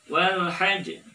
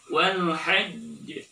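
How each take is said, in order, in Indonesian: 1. Konsonan terakhir langsung dilepaskan. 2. Konsonan terakhir ditahan sebelum dilepaskan. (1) "Jangan dibaca" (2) "tapi tahan dulu"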